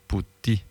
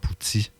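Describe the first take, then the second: First: The t is plain, with no hiss after it. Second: The t has a hissing s-like sound after it. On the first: The speaker calls it right. "Le T se dit comme en italien" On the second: The speaker calls it wrong. "mais pas comme en québécois"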